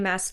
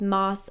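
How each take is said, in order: First: The vowel sounds like the a in mass. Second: The vowel sounds like the o in moss. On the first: The speaker calls it wrong. "I called her Sarah J. Maas for years before I was corrected" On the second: The speaker calls it right. "it was Moss"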